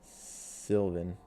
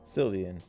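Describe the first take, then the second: First: The name is said with two syllables. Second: The name is said with three syllables. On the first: The speaker calls it wrong. "I've been saying it wrong this whole time" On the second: The speaker calls it right. "It's definitely Sylvian"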